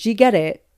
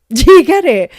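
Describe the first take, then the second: First: Said in the usual way. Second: Much louder and higher, excited; loud, high, hammered-home question; insistent shout. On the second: Real, not acted. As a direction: shout it to make sure the joke lands. Repeats question to push pun.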